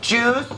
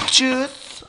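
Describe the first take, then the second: First: Put-on higher, rising childish whine; high-pitched juice. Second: Put-on higher, sing-song childish drawl; high-pitched juice. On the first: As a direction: say it like a kid begging. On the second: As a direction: coo it like a small child. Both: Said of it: "I just want some juice".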